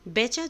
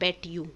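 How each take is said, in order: First: The words blend into one word, betcha. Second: The two words are said separately and fully. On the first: It is informal speech. "बेचा जो होता है informal होता है" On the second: It is formal speech. "फॉर्मल में होता है बेट यू"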